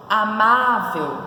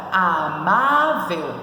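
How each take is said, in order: First: Said in the usual way. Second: Amável very slowly, a, má, vel; split into syllables. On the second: Shown as a demonstration. Teacher showing how to separate it, Amável in drawn-out syllables. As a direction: stretch out each syllable of Amável. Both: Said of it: "Como que se separa?".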